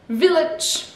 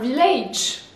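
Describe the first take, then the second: First: The last syllable is said with a short 'i' vowel. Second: The last syllable is said with a full 'age' vowel. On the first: The speaker calls it right. "le A redevient un petit I" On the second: The speaker calls it wrong. "Je sais que le A, ben, âge, age"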